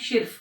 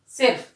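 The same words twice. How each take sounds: First: The first consonant is an 'sh' sound. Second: The first consonant is a plain 's' sound. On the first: The speaker calls it wrong. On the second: The speaker calls it right.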